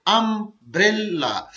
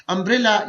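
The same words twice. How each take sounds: First: umbrella slowly, अम-ब्रे-ला; syllable by syllable. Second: Said in the usual way. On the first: Shown as a demonstration. Teacher demonstrating a three-syllable word, umbrella slowly split in three. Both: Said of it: "ये भी three syllable word है".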